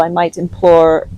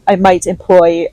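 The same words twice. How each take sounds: First: Says "implore" by mistake for "employ"; slip of the tongue. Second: Said in the usual way. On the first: Real, not acted. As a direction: trip on "implore" before correcting.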